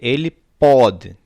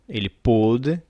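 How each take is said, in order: First: The o vowel is open. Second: The o vowel is closed. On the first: It refers to the present. "Com vogal aberta" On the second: It refers to the past. "com O fechada"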